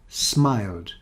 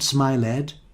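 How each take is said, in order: First: The ending is just a d consonant. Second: The ending is said as an extra syllable. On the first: The speaker calls it right. "you don't pronounce the ed at the end" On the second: The speaker calls it wrong. "not smiled"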